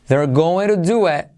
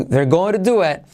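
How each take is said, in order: Both takes have the same delivery.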